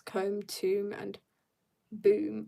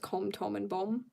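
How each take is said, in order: First: The three words have long vowels, ending in 'boom'. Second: All three words have the short vowel of 'bomb'. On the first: The speaker calls it right. "But no. It's" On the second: The speaker calls it wrong. "I could cause internet chaos by just pronouncing that as"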